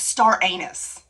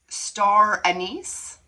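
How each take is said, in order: First: The second word is said as 'anus'. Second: The second word is said as 'anise'. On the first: The speaker calls it wrong. "It's star anus" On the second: The speaker calls it right. "let me pronounce it the right way"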